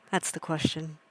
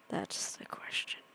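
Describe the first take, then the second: First: Said in the usual way. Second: Breathy whispered repeat; hushed spooky whisper. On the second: Shown as a demonstration. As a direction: whisper it like a secret. Whispered repeat of own line.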